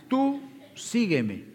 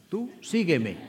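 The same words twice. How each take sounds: First: Tú sígueme slowed right down, much higher; emphatic repeat. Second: Said in the usual way. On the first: Retold or imitated. Jesus pressing Peter to follow, slow emphatic repeat. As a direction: drive home tú sígueme, slow and deliberate.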